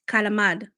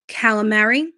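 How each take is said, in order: First: Calamari is said in the Italian-American way. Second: Calamari is said in the Americanized way. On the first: The speaker calls it right. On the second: The speaker calls it wrong.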